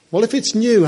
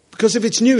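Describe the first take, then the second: First: New leaned on, falling; stress on new. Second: New leaned on, rising; stress on new. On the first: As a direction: hit new hard and let it drop. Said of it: "how is it improved?". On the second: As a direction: lift new as a question. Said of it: "it's different, isn't it?". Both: Shown as a demonstration.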